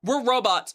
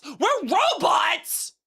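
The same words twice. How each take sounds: First: Said in the usual way. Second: Stunned high-pitched question; disbelieving slow shout; surprised, high, slow. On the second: Real, not acted. Surprised repeat.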